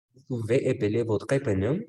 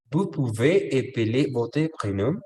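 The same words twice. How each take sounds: First: Said in the usual way. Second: "Vous pouvez épeler votre prénom?" lento, con "vous" marcado y subida final; modelo lento. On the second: Shown as a demonstration. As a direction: dictar la pregunta despacio y claro. (profesor modela la pregunta lentamente para la clase) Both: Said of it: "qué creen ustedes que significa esto".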